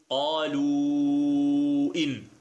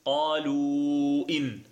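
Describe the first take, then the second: First: The long vowel is held extra long. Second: The long vowel is held at medium length. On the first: "وإذا أشبعنا نقول" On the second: "وإذا توسطنا نقول"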